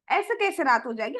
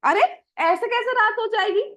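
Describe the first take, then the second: First: Said in the usual way. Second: Put-on higher, louder little boy protesting; a child surprised at mother's worry; child Krishna voice. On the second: Little Krishna protests to mother, higher and louder. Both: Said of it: "तो भगवान कहते हैं".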